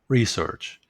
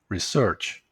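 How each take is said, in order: First: The stress is on the first syllable. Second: The stress is on the second syllable. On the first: It is used as a noun. "this is the noun form" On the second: It is used as a verb. "The second one is the verb form"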